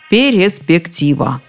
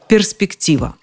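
First: An extra vowel is inserted after the R sound. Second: The R, S and P are said together. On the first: The speaker calls it wrong. "А вот если после Р вставить Е, будет очень даже удобно" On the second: The speaker calls it right. "придется напрячься и выговорить как надо"

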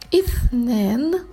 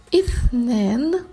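Both takes have the same delivery.

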